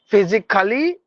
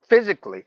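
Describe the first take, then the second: First: The ending is said with the A sounded. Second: The ending is said with the A silent. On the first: The speaker calls it wrong. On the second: The speaker calls it right. "you just have to mute the A"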